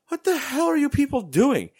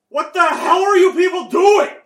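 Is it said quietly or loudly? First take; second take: quietly; loudly. First: It is said at a normal, quieter volume. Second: It is said much louder, almost shouted.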